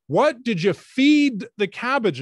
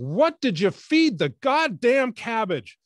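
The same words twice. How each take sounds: First: High, loud, slow, every word spelled out; over-enunciate as if to a deaf man; slow loud question. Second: High, loud, slow, furious at the end of her rope; exasperated shout. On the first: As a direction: interviewer raising her voice and slowing right down. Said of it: "she said". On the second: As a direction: spit out every word, out of patience. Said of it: "culminating in her going". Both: Retold or imitated.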